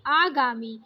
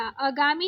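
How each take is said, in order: First: आगामी with a long opening aa; correct long first vowel. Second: आगामी with a short first a; wrong short first vowel. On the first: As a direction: say आगामी as "aa-gaa-mi". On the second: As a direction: say आगामी as "uh-gaa-mi". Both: Shown as a demonstration. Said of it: "आगामी नहीं".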